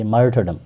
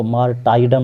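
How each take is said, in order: First: मार्टरडम with a short "ter" in the middle; मार्टरडम, middle syllable unstressed "ter", not "tie"; correct pronunciation. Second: मार्टाइडम with a long "tie" in the middle; wrong pronunciation. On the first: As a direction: say मार्टरडम as MAR-ter-dum. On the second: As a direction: say मार्टाइडम as mar-TIE-dum. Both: Shown as a demonstration. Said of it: "इसको मार्टाइडम नहीं पढ़ेंगे".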